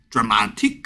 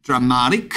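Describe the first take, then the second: First: "dramatic" with a crisp, released middle T; strong T. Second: "Dramatic" with the T softened to a quick tap, like "dramarik"; soft T. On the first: Teacher shows one accepted variant, strong clear T. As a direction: hit the T hard in "dramatic". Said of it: "어쩔 때는 제가 T 발음을 세게 하고". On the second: Teacher shows one accepted variant, soft tapped T. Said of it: "어쩔 때는 제가 T 발음을 세게 하고 어쩔 때는 안 하는데". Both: Shown as a demonstration.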